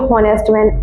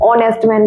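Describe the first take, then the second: First: The first word begins with an audible h sound. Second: The first word begins directly with a vowel sound. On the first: The speaker calls it wrong. "इसको ऐसे नहीं पढ़ेंगे" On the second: The speaker calls it right. "ऑनेस्ट man पढ़ेंगे"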